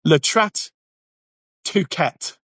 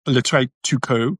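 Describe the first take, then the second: First: "Le trait tout quête" anglicised, each word sounded as English; deliberately English pronunciation. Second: "le trait tout court" said slowly as tentative French; attempted French pronunciation. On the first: Refusing to pronounce it the French way, "Le trait tout quête" deliberately anglicised. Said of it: "let's just be English". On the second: Unsure of the French term, attempting "le trait tout court" in French pronunciation. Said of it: "if that's even how you say it". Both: Shown as a demonstration.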